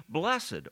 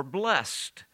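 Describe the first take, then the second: First: "blessed" said as BLESS-ed, two syllables. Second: "blessed" said as one syllable, BLEST. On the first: Preacher reading Mary's words, "blessed" in two syllables. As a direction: give "blessed" a sounded second syllable, BLESS-id. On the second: Preacher offering the human form, "blessed" as one-syllable BLEST. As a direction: run "blessed" together to rhyme with rest. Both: Shown as a demonstration.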